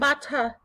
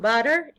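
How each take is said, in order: First: The word is said in a British way. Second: The word is said in an American way. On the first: "if we used uh, the British English version" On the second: "if we said it uh, using American English"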